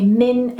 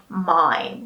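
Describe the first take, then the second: First: "min" with a short i, like "in". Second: "mine" with a long i, like the word mine. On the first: Teacher contrasting the endings, a short "min". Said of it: "We say min and not mine". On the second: Teacher showing the wrong ending, a long "mine". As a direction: stretch it into "mine". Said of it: "and not mine". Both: Shown as a demonstration.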